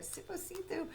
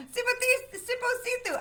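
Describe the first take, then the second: First: Said in the usual way. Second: Sipo Situ drawn out slowly, each syllable apart; slow it right down on Sipo Situ; said slower. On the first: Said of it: "I'm gonna just get right through it". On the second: Shown as a demonstration. Reader sounding out a hard name slowly. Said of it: "I gotta say it slower".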